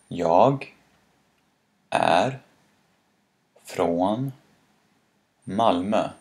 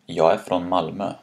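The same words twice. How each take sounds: First: Each word is said fully, with every sound. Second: Words run together and some sounds are dropped. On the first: "That's what these words sound like separately" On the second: "It sounds more like"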